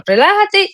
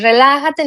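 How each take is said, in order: First: Higher repeat. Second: Said in the usual way. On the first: Retold or imitated. Therapist repeats his instruction to relax, much higher. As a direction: lift "Relájate" well up the second time. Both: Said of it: "nuevamente te digo".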